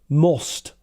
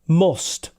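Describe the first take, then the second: First: It has the northern English vowel. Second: It has the northern English vowel.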